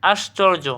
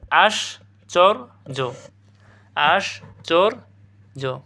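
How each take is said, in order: First: Said in the usual way. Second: আশ্চর্য very slow, "ash... chor... jo"; syllable by syllable. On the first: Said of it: "প্রশ্নটা দেখো". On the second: Shown as a demonstration. Teacher asking students can they manage it, slow syllable demonstration. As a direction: break আশ্চর্য into three parts with clear pauses. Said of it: "দেখো, পারবা না?".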